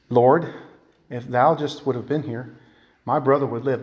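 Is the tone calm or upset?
calm. It is said in a calm, docile tone.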